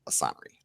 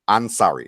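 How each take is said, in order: First: No n sound comes before the s. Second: An n sound comes before the s. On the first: The speaker calls it wrong. "not Asari" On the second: The speaker calls it right. "Ansari, not Asari"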